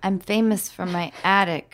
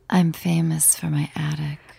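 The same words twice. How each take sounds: First: It is said in a plain, normal voice. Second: It is said in a sultry, sexy voice.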